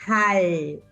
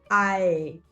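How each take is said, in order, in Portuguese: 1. A sílaba começa com um H audível. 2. A sílaba começa direto com a vogal. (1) "você tem que pronunciar o H" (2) "Tem aluno que quer falar ae"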